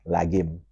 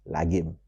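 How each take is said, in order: Both takes have the same delivery.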